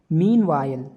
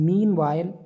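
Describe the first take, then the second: No difference in how they are said.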